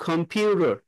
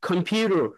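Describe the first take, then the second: First: The stress falls on the second syllable. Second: The stress falls on the second syllable.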